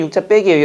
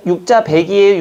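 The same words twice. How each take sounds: First: 빼기 with a hard tensed ㅃ; 빼기 tensed at the start, as in real speech; tensed pronunciation. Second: 배기 said lax, not tensed; plain spelling reading. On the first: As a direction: say 빼기 the way people really say it. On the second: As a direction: read 배기 just as it is spelled. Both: Shown as a demonstration. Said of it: "근데 웃긴 건 우리는 보세요".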